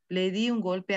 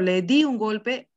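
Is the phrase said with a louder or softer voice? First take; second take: softer; louder. First: The phrase is said with a lowered, softer voice. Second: The phrase is said with a stronger, louder voice. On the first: It refers to another person. "se baja el tono de voz" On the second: The speaker refers only to themself. "se refiere con mayor fuerza de voz"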